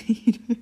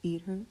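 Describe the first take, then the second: First: Laughing through a louder try at bored. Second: Said in the usual way. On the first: Shown as a demonstration. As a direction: test a bored Eat her while cracking up. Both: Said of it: "How do you sound bored?".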